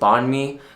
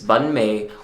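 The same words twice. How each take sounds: First: The syllables are said without Vietnamese tones. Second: The syllables carry Vietnamese tones. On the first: "like without the tones" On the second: "but with the tones"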